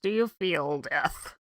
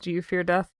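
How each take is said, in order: First: It is said through the nose, imitating her friend. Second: It is said in a Davy Jones voice, not nasal.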